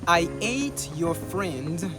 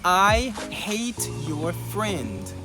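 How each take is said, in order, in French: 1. Le deuxième mot ne commence pas par un son h. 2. Le deuxième mot commence par un son h. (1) "si on ne prononce pas le H" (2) "qui veut dire je déteste ton ami"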